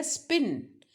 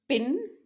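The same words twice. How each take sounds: First: स्पिन with no puff of air after the s; unaspirated p. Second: पिन with a puff of air on the p; aspirated p. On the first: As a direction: keep the p in स्पिन tight and dry. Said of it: "स्पिन में आपका वैसा". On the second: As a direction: pop a breathy p at the start of पिन. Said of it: "puffing sound आता है". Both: Shown as a demonstration.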